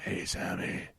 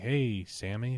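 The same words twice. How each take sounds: First: It is said in a gruff, rough voice. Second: It is said in a normal, everyday voice.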